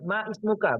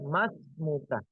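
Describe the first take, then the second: First: The two words are said separately with a vowel break. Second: The two words are merged into one word, masmuka. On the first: The speaker calls it wrong. "Berarti ini tidak ber- tidak belajar baik-baik" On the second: The speaker calls it right. "Yang benar adalah mas muka"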